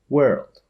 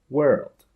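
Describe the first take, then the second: Both takes have the same delivery.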